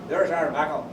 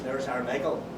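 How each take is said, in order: First: The name is said as 'Mackle', Tyrone style. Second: The name is said as standard 'Michael'. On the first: "they pronounced Michael as Mackle" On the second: "meaning there's our Michael"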